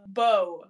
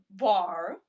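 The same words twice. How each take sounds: First: Said in the usual way. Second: "bar", the O turned into an R ending; "bar" with R tacked on; bow as "bar". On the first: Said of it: "maybe it's the O sound". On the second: Shown as a demonstration. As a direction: say bow as "bar", mock Aussie. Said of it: "you tack on an R".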